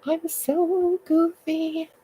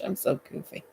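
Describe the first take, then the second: First: High, drawn-out silly voice; goofy voice. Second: Said in the usual way. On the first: Pretend. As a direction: ham it up slowly, pitched way up. Repeats it in goofy voice.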